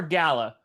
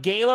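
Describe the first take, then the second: First: "Gala" said as GAL-a; first syllable of "Gala" like the name Al; short A pronunciation. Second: First syllable of "Gala" rhymes with day; long A pronunciation. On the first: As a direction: say "Gala" with the a of cat. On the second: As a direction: say "Gala" with an ay sound. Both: Shown as a demonstration. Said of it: "Is it pronounced Gala or Gala".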